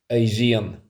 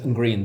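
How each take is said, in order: First: It starts with a Y sound. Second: It starts with a hard G sound. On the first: The speaker calls it right. "the only correct way of saying it that I'm aware of" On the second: The speaker calls it wrong. "The wrong one is green"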